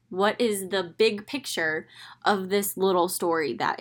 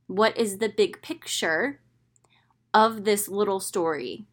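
First: Said in the usual way. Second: Whispered rhetorical question. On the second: Shown as a demonstration.

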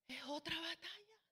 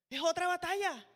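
First: Dropped to a near whisper; barely voiced punchline; hushed aside. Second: Said in the usual way. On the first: Shown as a demonstration. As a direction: let it fall almost silent.

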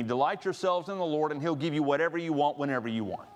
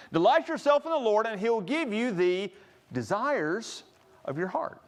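First: Breezy fast misquoted promise; tossed-off wishful misquote of the verse; mock misquote. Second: Setting the record straight with emphasis; corrected verse. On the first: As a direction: rattle it off like a too-good deal. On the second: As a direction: proclaim the true verse firmly. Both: Shown as a demonstration. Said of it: "That's actually not the rest of the verse".

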